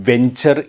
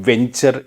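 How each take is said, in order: No difference in how they are said.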